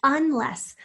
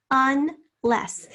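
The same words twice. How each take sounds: First: Said in the usual way. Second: Unless broken into un, pause, less; split into syllables. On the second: Shown as a demonstration. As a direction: sound out unless loudly in two syllables. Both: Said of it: "Say the word to yourself in syllables".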